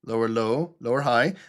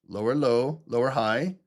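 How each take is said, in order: Both takes have the same delivery.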